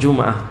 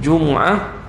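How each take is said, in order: First: The m is followed by an a vowel. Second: The m is followed by an u vowel. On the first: This is an accepted alternative reading. "dan baris atas" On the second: This is the most widely accepted reading. "katakan dengan baris depan, itu yang paling masyhur"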